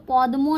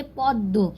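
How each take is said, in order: First: "पद्मो" with the m sounded after d; wrong reading podmo. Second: "पद्मो" as pod-do, silent m; Bengali doubled d. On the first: Teacher warns learners off this reading, "पद्मो" with audible m. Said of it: "पद्मो नहीं पढ़ेंगे". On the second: Teacher shows learners Bengali reading, "पद्मो" said pod-do. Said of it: "द को double पढ़ेंगे". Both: Shown as a demonstration.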